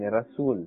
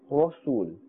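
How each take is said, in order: First: The R is light, with a thin mouth. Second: The R is heavy, with a full mouth. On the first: The speaker calls it wrong. "we are not saying Rasul. Rasul here will be incorrect" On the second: The speaker calls it right. "pronouncing it with a thick tone and a fuller mouth"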